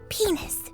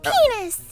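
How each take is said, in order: First: The word is said quietly. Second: The word is said loudly.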